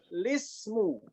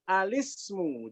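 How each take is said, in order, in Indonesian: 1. Kata ini langsung dimulai dengan bunyi L. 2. Kata ini dimulai dengan vokal sebelum L. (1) "alif lamnya enggak usah dibaca, langsung lismu" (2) "Jadi langsung alif, lam, sin, mim"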